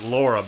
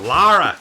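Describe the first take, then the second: First: The name is said in a plain accent. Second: The name is said in a Kentucky accent. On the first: This is how the speaker says the name. "I always pronounce it Laura" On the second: This is how a grandmother said the name. "my grandmother always called her Lara"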